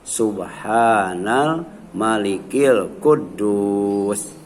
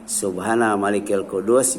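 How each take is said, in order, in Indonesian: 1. Frasanya dipanjangkan dan suaranya ditinggikan. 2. Frasanya diucapkan dengan panjang dan nada biasa. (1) "yang ketiga dipanjangkan dan ditinggikan"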